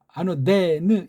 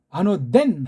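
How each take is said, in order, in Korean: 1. 마지막 N 뒤에 희미한 모음이 남아요. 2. 단어가 N 소리로 딱 끝나요. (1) "아노데느 이렇게 끝난다고요" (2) "우린 아노덴 하고 끝나지만"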